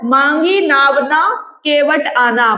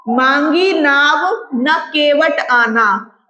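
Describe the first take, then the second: First: मांगी नाव न, then a comma break before Kewat; pause after न. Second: मांगी नाव, then a comma break before न; slow recital, break between नाव and न; pause after नाव. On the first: Teacher shows the comma's effect, pausing after न. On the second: Teacher shows the comma's effect, pausing after नाव. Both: Shown as a demonstration. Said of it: "बस कॉमे का फर्क होता है".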